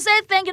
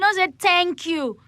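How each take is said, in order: First: It is said as the ordinary words. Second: It sounds like the letter names T and Q. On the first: The speaker calls it right. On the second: The speaker calls it wrong. "Thank you is like Q in ten places"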